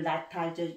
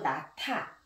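First: The d sound stays plain, without aspiration. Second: The h merges and d becomes aspirated t. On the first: The speaker calls it wrong. "나타가 아니고" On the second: The speaker calls it right. "디귿이 히읗과 만나면 ... 트로 변하는 거예요"

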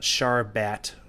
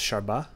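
First: The final T sound is pronounced. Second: The final T sound is left out.

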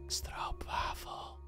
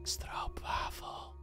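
First: It is said in a seductive, sultry voice. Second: It is said in a seductive, sultry voice.

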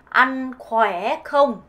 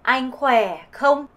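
First: It is said in a southern Vietnamese accent. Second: It is said in a northern Vietnamese accent.

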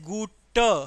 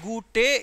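First: The word ends with an 'a' sound. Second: The word does not end with an 'a' sound. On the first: The speaker calls it right. "Whenever there is e at the end, it will create the sound of a" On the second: The speaker calls it wrong. "it is not gute"

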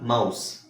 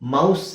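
First: The word ends with a hissing s sound. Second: The word ends with a buzzing z sound. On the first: The speaker calls it right. "Common ಎಸ್ sound ಬರುತ್ತೆ" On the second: The speaker calls it wrong. "ಮೌಸ್ ಅಲ್ಲ"

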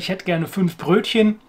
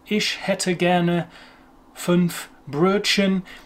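First: It is said with a native German accent. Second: It is said with an English accent. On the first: "You'd understand if they didn't say" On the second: "it'd be understandable if you're speaking to an English speaker and they say"

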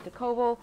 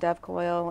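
First: The name is said with three syllables. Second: The name is said with two syllables. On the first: The speaker calls it right. "something more sophisticated like Decoval" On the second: The speaker calls it wrong. "I want to call it Dev Coil and that's not right"

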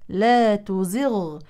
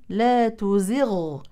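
Both takes have the same delivery.

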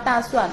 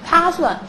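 First: The first consonant is unaspirated, like d. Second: The first consonant is aspirated, like t. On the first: The speaker calls it right. "本来是要发大蒜" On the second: The speaker calls it wrong. "不是大蒜了，是他他蒜，那么就有了一个怎么样送气的这种音的表现"

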